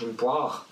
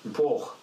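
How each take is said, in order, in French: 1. La voyelle est fermée et très profonde dans la gorge. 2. La voyelle sonne presque comme un O. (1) "fermé, et très profond dans la gorge" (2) "c'est presque un O"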